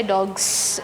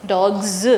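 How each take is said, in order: First: Dogs ending in a hissed S instead of Z; voiceless S ending. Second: Dogs ending in a buzzing Z, "dogz"; voiced Z ending. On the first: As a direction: say dogs wrongly, with an unvoiced S. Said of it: "We never say dogs". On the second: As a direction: voice the final s of Dogs as Z. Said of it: "depending on what the last sound is". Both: Shown as a demonstration.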